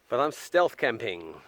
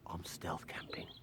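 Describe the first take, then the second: First: It is spoken in a normal voice. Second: It is whispered.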